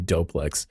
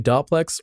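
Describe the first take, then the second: First: The first syllable has a long 'o', like 'dough'. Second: The first syllable has a short 'o', like 'dop'. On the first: The speaker calls it right. "are they gonna be smart and say Doplex? ... So it's like a Homer Simpson dough" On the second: The speaker calls it wrong. "Are they gonna say Dopplex"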